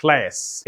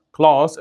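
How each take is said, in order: First: American "كلاس" with a fronted vowel; thin front vowel in "كلاس"; American pronunciation. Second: British "كلاس" with a long "ah"; broad back vowel in "كلاس"; British pronunciation. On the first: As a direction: say "كلاس" as "kles", American style. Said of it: "الامريكان يقول كلاس". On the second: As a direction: say "كلاس" as "klahs", British style. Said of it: "البريتش يقول كلاس". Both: Shown as a demonstration.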